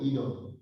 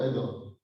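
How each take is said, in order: First: "Edom" said EE-dom, opening on a long ee; "Edom" as EE-dom, first vowel long; long-E pronunciation. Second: "Edom" said EH-dom, opening on a short eh; "Edom" as EH-dom, first vowel short; short-E pronunciation. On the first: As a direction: start "Edom" with the vowel of "eat". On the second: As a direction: start "Edom" with the vowel of "egg". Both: Shown as a demonstration. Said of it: "that you may pronounce it".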